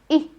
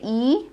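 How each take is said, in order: First: The vowel is a short i sound. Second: The vowel is a long ee sound. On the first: The speaker calls it right. "but say E" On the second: The speaker calls it wrong. "Don't say E"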